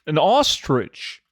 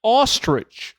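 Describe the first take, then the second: First: Ostrich drawn out slowly in a British way; slow mock British; slow British attempt. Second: Ostrich said with British vowel, high and punchy; mock British ostrich; British accent attempt. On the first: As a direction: carefully sound out an ostrich British-style. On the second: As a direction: try the UK way of saying ostrich. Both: Shown as a demonstration. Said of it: "I'm trying to say it like you guys in the U K".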